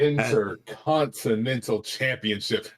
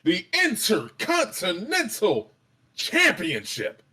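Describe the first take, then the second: First: It is said in a plain, flat voice. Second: It is said in a big, booming announcer voice.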